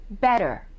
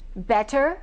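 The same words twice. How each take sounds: First: The T is a quick D-like tap. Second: The T is a crisp, clear T.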